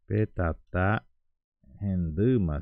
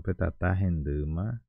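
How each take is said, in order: First: "Petatá renduma" very slow, each syllable drawn out; slow pronunciation demo. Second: Said in the usual way. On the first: Shown as a demonstration. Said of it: "Então eu falaria P". ("Petatá renduma" bem devagar, sílaba por sílaba) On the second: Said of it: "Se eu fosse falar, por exemplo".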